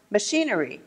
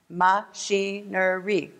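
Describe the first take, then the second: First: Said in the usual way. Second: "Machinery" slowly split into ma, chi, ne, ry; syllable by syllable. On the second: Shown as a demonstration. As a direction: say "Machinery" in four slow, separate beats. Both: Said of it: "Four syllables".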